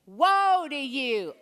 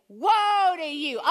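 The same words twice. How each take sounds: First: Slow Woe to you, mild force; a first practice go at Woe to you; half-hearted woe. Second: Slow, high, louder Woe to you; angry woe. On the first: Congregation practising the chant, still too tame. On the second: Preacher showing the congregation how Jesus says it angrily. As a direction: thrust the finger out and boom Woe. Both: Shown as a demonstration. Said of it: "Jesus is angry. Gotta do a little better".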